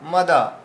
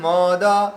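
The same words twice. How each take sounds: First: The first vowel is pronounced short. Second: The first vowel is pronounced long. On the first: The speaker calls it right. "মটা দীর্ঘ নয়, হ্রস্ব আছে" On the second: The speaker calls it wrong. "এরকম বললে তাহলে ম দীর্ঘ উচ্চারণ হয়ে গেল"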